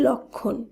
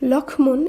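First: No m sound; the cluster sounds slightly nasal. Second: An m sound follows the ksh cluster. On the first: The speaker calls it right. "শব্দটি শুদ্ধ উচ্চারণ হবে লক্ষণ" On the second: The speaker calls it wrong. "শব্দটিকে আমরা কিন্তু লক্ষ্মণ এইভাবে উচ্চারণ করছি না"

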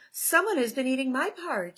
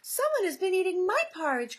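First: It is said in a medium-pitched voice. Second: It is said in a small, high voice.

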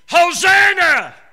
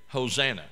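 First: It is cried out loudly. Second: It is said flatly and quietly.

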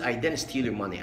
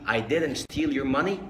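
First: It is said very fast with reduced sounds. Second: It is said at a normal, careful speed.

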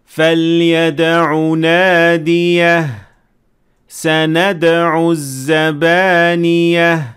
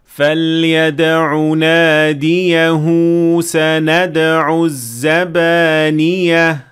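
First: There is a stop after the second word. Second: The words run together with a lengthened link. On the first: "if we stopped at the end of this word and then we started at the following word" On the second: "Linking Mad is only there when you link up between the two words"

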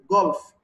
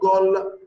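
First: The word ends with a clear f sound. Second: The word ends without a final f sound. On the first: The speaker calls it right. "You will say F, the last letter here" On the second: The speaker calls it wrong. "not goal"

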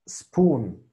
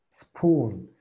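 No difference in how they are said.

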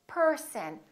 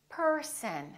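No difference in how they are said.

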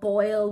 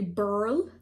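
First: The vowel sounds like 'oy'. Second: The vowel sounds like 'ur'. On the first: "for boil" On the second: "we'll say burl"

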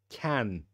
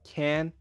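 First: It is said with a British accent. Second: It is said with an American accent. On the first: "British English" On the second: "American English does"

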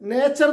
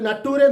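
First: The middle is a ch sound, ending in er. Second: The middle is a too sound, ending in reh. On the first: The speaker calls it right. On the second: The speaker calls it wrong.

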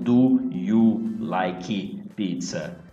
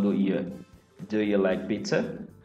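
First: The words 'do you' are pronounced fully and clearly. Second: The words 'do you' are reduced and run together. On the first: The speaker calls it wrong. "E não do you like pizza. Assim não fica legal" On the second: The speaker calls it right. "você vai acabar falando do you like pizza?"

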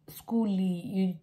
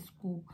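First: An extra vowel is added after the final l. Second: The word ends cleanly on the l sound. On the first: The speaker calls it wrong. "You don't say, schooly" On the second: The speaker calls it right. "just say school"

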